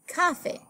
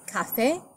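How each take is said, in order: First: The stress is on the first syllable. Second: The stress is on the last syllable. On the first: The speaker calls it wrong. "the stress would naturally fall on the next to the last syllable, making it café" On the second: The speaker calls it right. "The word is café, so we spell it with an accented E"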